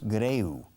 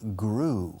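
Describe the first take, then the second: First: The vowel glides from e to u. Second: The vowel is a single long oo. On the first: The speaker calls it wrong. "No es greu" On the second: The speaker calls it right. "Rima con tripulación. Crew"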